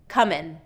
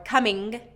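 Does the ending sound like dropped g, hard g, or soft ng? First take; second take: dropped g; hard g. First: The word ends in a plain n sound. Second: The word ends with a hard g sound. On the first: "more often I hear comin'" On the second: "I'm hearing coming or coming, and a really strong ending there"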